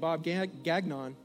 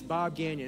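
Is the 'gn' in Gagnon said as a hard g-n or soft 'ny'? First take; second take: hard; soft. First: The 'gn' is said as a hard g-n. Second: The 'gn' is said as a soft 'ny' sound. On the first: The speaker calls it wrong. "Don't say his name Bob Gagnon" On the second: The speaker calls it right. "It's like a soft inye or something"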